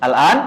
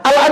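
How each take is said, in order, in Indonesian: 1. Suaranya naik di akhir seperti pertanyaan. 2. Suaranya datar lalu turun di akhir. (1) "diubah aja intonasinya" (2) "Al-An dibaca Al-An lagi"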